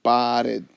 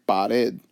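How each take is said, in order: First: "pared" split into pa and red; divided into syllables. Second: Said in the usual way. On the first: Shown as a demonstration. Teacher dividing two syllables, "pared" syllable by syllable. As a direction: draw out pa, then red, in "pared". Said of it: "again, we divide it". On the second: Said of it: "look at the first word".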